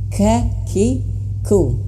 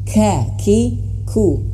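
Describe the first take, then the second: First: The k sounds are released with audible breath. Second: The k sounds are released with audible breath.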